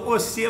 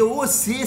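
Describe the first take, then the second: First: The word is said without the v sound. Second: The word starts with a clear v sound.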